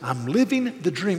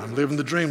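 First: It is said sincerely, truly meant. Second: It is said sarcastically, not meant.

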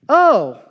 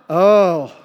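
First: It sounds surprised by new information. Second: It sounds pained, wincing at someone's hurt.

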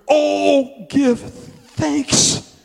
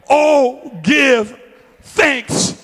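First: It is said mildly, like a gentle suggestion. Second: It is said forcefully, like a firm command. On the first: It is offered as a suggestion. The speaker calls it wrong. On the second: It is an order that must be obeyed. The speaker calls it right.

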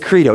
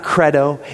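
First: The first syllable sounds like 'creed'. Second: The first syllable sounds like 'cred'. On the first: The speaker calls it right. "it's credo. It's just creed with an O" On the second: The speaker calls it wrong. "It's not credo"

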